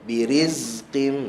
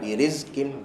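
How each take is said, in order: First: The z sound is softly drawn out and flowing. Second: The z sound is cut short and abrupt. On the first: The speaker calls it right. "Saya liritkan sikit je" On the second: The speaker calls it wrong. "jangan ... tu tak ada rakhawah"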